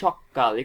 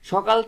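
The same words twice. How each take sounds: First: The k sound is doubled and held long. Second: The k sound is short and single. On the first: "আমরা বলতে পারি সকাল, এখানে ক কিন্তু দ্বিত্ব হয়ে গেছে।" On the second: "সকাল থেকে"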